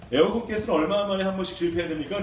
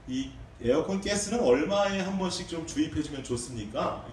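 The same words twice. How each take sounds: First: 에어컨 pushed out louder, rising at the end; mildly impatient repeated question; louder insistent asking. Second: Said in the usual way. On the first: Retold or imitated. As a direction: press the question a bit louder. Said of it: "한번 더 물어봤어요". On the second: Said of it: "제가 아저씨께 여쭸어요".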